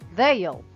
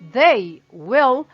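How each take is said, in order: First: The words are joined into one short syllable. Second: Both words are said fully and separately. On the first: "para falar fica um pouco mais dinâmico, um pouco mais rápido" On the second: "ao invés de they will"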